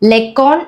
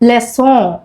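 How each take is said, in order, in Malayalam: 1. നടുവിലെ വ്യഞ്ജനം കടുപ്പമുള്ള ക് ശബ്ദമാണ്. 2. നടുവിലെ വ്യഞ്ജനം മൃദുവായ സ് ശബ്ദമാണ്. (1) "ലെക്കോൺ എന്ന് വായിക്കുന്നത്" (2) "ഇതെങ്ങനെയാണ് ഉച്ചരിക്കുക?"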